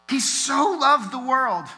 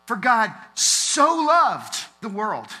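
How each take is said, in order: First: "loved" drawn out high and slow; He so "loved" the world, raised and slow; emphasis on loved, higher still. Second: "loved" stretched out slow, louder and higher; For God so "loved" the world, slow and heavy; weighty emphasis on loved. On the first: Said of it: "it's a little different when you read it that way". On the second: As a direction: lean into "loved" with emotion. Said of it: "I want you to read it like this". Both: Shown as a demonstration.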